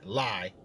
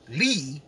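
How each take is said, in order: First: The vowel sounds like 'ie' in 'lie'. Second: The vowel sounds like 'ee' in 'see'. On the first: "but I'm going to say Lai, because it's better that way" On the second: "I know that might be Lee"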